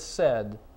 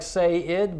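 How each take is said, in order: First: The word is said with one syllable. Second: The word is said with two syllables. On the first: The speaker calls it right. "but it's said" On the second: The speaker calls it wrong. "looks like say-id"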